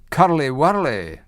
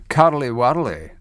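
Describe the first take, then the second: First: It is said in the speaker's ordinary accent. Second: It is said in a deep Scottish accent. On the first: The speaker calls it wrong. "Sounds a lot better than curly whirly" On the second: The speaker calls it right. "with a, a deep Scottish accent. I'm going to go um, Edinburgh"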